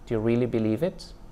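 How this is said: The rise is in a middle, neutral pitch range.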